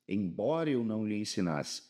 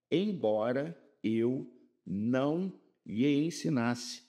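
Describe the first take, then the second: First: Said in the usual way. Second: Embora eu não lhe ensinasse drawn out slowly, each word spaced; slow, deliberate classroom rereading; stretched teaching read. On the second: Shown as a demonstration. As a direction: linger over embora eu não lhe ensinasse to show the swap. Teacher rereads with the substitute conjunction.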